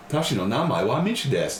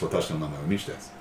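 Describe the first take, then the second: First: Big rises and dips across "Watashi no namae wa Michi desu"; sing-song Japanese. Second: "watashi no namae wa Michi desu" fast, low and level; no inflection. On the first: Learner introducing themselves to a native speaker, sing-song over-inflection on "Watashi no namae wa Michi desu". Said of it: "Sing us a song". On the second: Native speaker showing a learner how, toneless quick "watashi no namae wa Michi desu". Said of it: "Japanese spoken completely properly has no inflection". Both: Shown as a demonstration.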